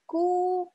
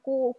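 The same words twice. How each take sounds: First: The syllable sounds light and thin. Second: The syllable sounds heavy and thick. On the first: The speaker calls it right. "Dibacanya pun tipis" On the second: The speaker calls it wrong. "bukan ku"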